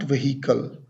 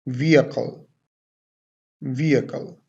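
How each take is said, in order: First: Vehicle as "veh-HEE-kul"; wrong pronunciation. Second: Vehicle as "VEE-uh-kul", no H; correct pronunciation. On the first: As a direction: sound the H in vehicle as a wrong example. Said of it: "Not vehicle". (vehicle का ग़लत उच्चारण, "वहीकल") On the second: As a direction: model vehicle with a silent H, stress first. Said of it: "The correct way of pronunciation to pronounce this word". (vehicle का सही उच्चारण, "वीअकल") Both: Shown as a demonstration.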